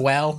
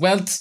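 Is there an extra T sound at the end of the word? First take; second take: no; yes. First: The word ends plainly without a T sound. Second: The word ends with an added T sound. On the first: "instead of saying well" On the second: "he just goes well"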